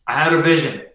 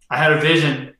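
The two takes are said the same way.

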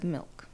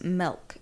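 First: Said in the usual way. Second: "milk" with the vowel of "bell"; mispronounced milk. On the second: Retold or imitated. Mocking how he says it, "milk" as "melk". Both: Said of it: "instead of".

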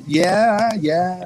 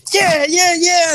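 First: Limp, awkward half-hearted yeah; deflate, barely mean it; meek half-hearted. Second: Pumped-up hype yell, much higher; fired-up yell. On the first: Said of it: "And then I'm kinda just". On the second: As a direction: shout it like a wrestler charging in. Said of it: "supposed to be all, like, fired up". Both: Retold or imitated.

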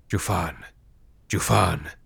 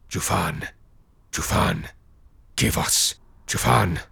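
First: Echoing ethereal energy being. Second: Hushed eerie spirit chant; breathy ghostly chanting; echoing ethereal energy being. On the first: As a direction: murmur it like distant ghosts. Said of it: "they murmured". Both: A narrator's reading.

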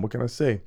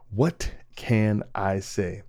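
First: Said in the usual way. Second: What can I say? stretched out slowly, each word lingered on; slow, mock-humble shrug of a line; slow drawn-out. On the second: Shown as a demonstration. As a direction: let it hang, slow and knowing.

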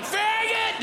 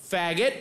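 First: Yelled slur. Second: Flat heckle. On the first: Shown as a demonstration. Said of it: "Didn't yell it, didn't go like". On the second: Retold or imitated. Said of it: "said it just like that".

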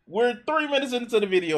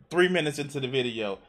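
First: Three raised high and fast; stress on three. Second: Said in the usual way. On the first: Real, not acted. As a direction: punch three, higher and faster. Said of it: "repeated with emphasis". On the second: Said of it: "repeats it with emphasis".

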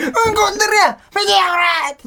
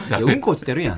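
First: High, loud delighted shout of 「うんこ」; excited shout. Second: Said in the usual way. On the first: Retold or imitated. Showing how he yells whenever he spots dog poop, loud and high. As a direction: yell it out like a thrilled kid. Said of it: "俺毎回うんこ見て". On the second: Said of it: "ってなるやん".

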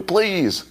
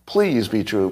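First: High pleading squeak; a mock pleading whimper on "Please."; whiny plea. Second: Said in the usual way. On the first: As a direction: beg like a child, way up high.

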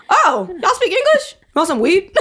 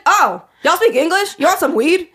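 First: High, laughing dealer voice, surprised; mimicking street dealer. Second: Lightly voiced dealer, higher and louder, surprised; a hint of the weed seller switching to English; mimicking street dealer. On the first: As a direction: ham up the weed seller spotting English speakers. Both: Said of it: "talking like that".

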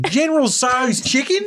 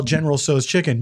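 First: "General Tso's chicken" with a silly exaggerated vowel on "Tso's"; over-pronounce "General Tso's chicken" as a joke; mock-authentic pronunciation. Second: Said in the usual way. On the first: Shown as a demonstration. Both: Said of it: "in China, they call".

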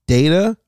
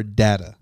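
First: Data said as "DAY-tuh"; data, first syllable rhyming with day; long-a data. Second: Data said as "DAT-uh"; data, first syllable as in "dad"; short-a data. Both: Shown as a demonstration. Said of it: "Do you say data or data".

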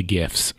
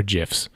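First: "gifs" with a hard G as in gift. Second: "gifs" with a soft G, like "jifs". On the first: Offering one way to say it, "gifs" with hard G. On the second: Offering the other way to say it, "gifs" with soft G. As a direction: say "gifs" starting with a J sound. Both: Shown as a demonstration. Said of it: "the gifs or gifs".

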